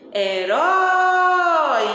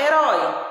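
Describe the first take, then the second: First: Sung, sílaba RÓ de "Herói" cantada, longa, aguda e forte; sung, cante a palavra esticando bem o RÓ. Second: Said in the usual way. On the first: Shown as a demonstration. (sung, palavra cantada para achar a sílaba tônica) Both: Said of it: "exercício de cantar a palavra".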